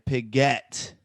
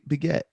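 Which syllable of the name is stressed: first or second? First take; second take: second; first. First: The stress is on the second syllable. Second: The stress is not on the second syllable. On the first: The speaker calls it wrong. "it's like you're saying Piget. Like you're emphasizing the get part" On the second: The speaker calls it right. "It's yeah, P- Biget"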